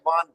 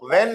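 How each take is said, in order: First: The vowel is a long 'ah' sound. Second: The vowel is a short 'e' sound. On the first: The speaker calls it right. "वान है" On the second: The speaker calls it wrong. "वैन नहीं है"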